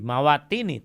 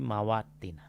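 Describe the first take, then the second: First: The word ends with an 'i' vowel. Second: The word ends with an 'a' vowel. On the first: The speaker calls it wrong. "bukan fi mawatini" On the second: The speaker calls it right. "tapi mawatina"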